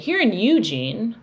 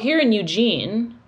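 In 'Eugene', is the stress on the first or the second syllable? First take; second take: first; second. First: 'Eugene' is stressed on its first syllable. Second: 'Eugene' is stressed on its second syllable. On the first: This is how the speaker personally says the town's name. "I emphasize the first one" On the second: This is how local people say the town's name. "They say"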